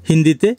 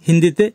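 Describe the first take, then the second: No difference in how they are said.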